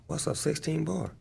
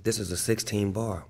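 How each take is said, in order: First: Higher-pitched, softer question; puzzled novice. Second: Said in the usual way. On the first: Retold or imitated. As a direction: play the newcomer asking what that means. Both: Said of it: "was giving me game on".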